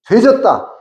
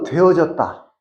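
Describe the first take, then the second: First: The word is shortened and said more forcefully. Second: The word is said in full, softly. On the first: "좀 더 센 발음을 하면" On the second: "우리말로는"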